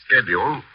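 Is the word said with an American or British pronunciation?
American. It is said with an American pronunciation. "following the accepted Keokuk tradition"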